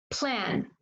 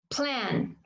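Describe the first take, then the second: No difference in how they are said.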